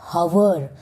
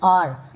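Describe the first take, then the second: First: The word begins with an audible h sound. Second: The word begins with a vowel, no h. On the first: The speaker calls it wrong. "not hour" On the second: The speaker calls it right. "the correct pronunciation is R"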